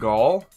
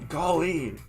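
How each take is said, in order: First: The name is said as one syllable. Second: The name is said as two syllables. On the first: "the E is silent" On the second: "or it's like Golly"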